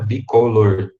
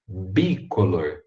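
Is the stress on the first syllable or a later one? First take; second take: later; first. First: The stress falls on a later syllable. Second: The stress falls on the first syllable. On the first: The speaker calls it wrong. "é errado falar bicolor, igual a gente fala em português" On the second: The speaker calls it right. "Joga a tônica lá no bi"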